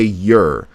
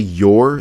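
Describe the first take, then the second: First: The word has a reduced 'er' vowel. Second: The word has a full 'or' vowel. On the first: "they say your, like Y E R" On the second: "a lot of people don't say your"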